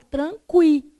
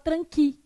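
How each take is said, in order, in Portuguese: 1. O u é pronunciado, com terminação kwi. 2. O u é mudo, com terminação ki. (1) "você fala tranqui" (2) "você não fala tranqui"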